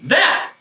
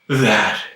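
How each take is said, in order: First: The word is said in a happy way. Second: The word is said in a sad way. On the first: "You should say it happy" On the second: "You should say it sad"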